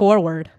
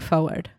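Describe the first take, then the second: First: The first syllable sounds like 'for'. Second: The first syllable sounds like 'foe'. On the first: The speaker calls it right. "Just instead of forward" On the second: The speaker calls it wrong. "I say foe"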